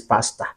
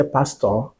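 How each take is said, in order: First: "pastor" with an open "ah" ending, softly; low, soft "pastor" ending in "tah"; Ghanaian pronunciation. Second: Said in the usual way. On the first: Shown as a demonstration. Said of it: "you are speaking it like this". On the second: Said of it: "You want to say pastor".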